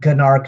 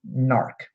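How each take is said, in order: First: The word begins with a hard G sound. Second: The word begins with an N sound. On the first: The speaker calls it wrong. "Not gnark" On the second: The speaker calls it right. "the G is silent"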